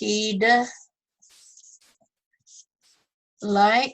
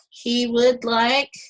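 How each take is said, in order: First: Would is shortened and joined onto he. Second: Would is said in full as a separate word.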